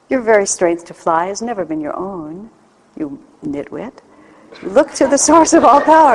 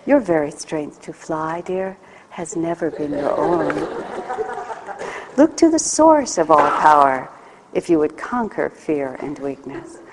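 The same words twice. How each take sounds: First: Teasing, scornful reading, loud at the end; sarcastic reading. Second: Gentle, unhurried compassionate voice; compassionate reading. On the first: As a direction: read it like a sarcastic rebuke. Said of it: "do you say this with sarcasm?". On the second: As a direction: read it as a loving God would. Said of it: "God would be compassionate". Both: Shown as a demonstration.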